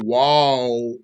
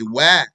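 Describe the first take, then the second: First: The vowel is heavy and rounded. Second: The vowel is light and open. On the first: The speaker calls it wrong. "Wow is light. Don't say wow" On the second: The speaker calls it right. "Say wah"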